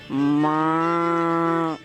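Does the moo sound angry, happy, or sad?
sad. A drawn-out moo sounding sad.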